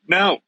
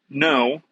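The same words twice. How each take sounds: First: The word is said somewhat louder than before. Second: The word is said at a normal, quiet volume.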